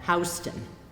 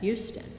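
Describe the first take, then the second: First: It is pronounced the Delaware way. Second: It is pronounced the Texas way.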